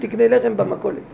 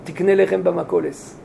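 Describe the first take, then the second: First: The final sound is pronounced in modern Israeli style. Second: The final sound is pronounced in Ashkenazi style. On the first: This is how everyday speech sounds. "הם אומרים" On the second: This is the traditional prayer pronunciation. "הם מתפעלים בעברה אשכנזית. אבל הם לא מדברים ככה"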